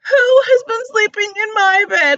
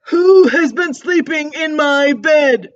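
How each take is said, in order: First: It is wailed, like little Baby Bear. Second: It is roared loudly, like Papa Bear.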